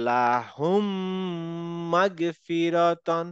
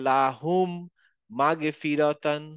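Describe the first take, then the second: First: লাহুম মাগফিরাতান with m held two counts through the nose, slow; merged mim with ghunna. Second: লাহুম then মাগফিরাতান said apart, m not merged, slow; separated mim, wrong way. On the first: Teacher models the correct joined reading. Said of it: "আমরা পড়বো". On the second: Teacher shows the wrong separate reading. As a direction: break after লাহুম before মাগফিরাতান. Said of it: "আলাদা করে পড়বো না". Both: Shown as a demonstration.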